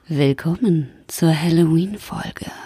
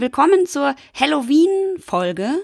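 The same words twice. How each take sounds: First: It is said in a seductive vampire voice. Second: It is said in a normal voice.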